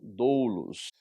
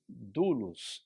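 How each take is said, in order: First: The first vowel is the diphthong ou sound. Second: The first vowel is a plain u sound. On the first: The speaker calls it wrong. "e não doulos" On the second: The speaker calls it right. "o som dele será de u"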